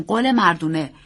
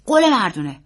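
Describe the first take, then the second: First: Adult voice, firm and falling; reassuring uncle. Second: Put-on louder, lightly raised boy's voice; insistent young nephew; earnest boy. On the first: Acted. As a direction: grant the child his promise. Uncle echoes boy's promise. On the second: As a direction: ask for a solemn promise as a child. Boy demands promise, uncle echoes.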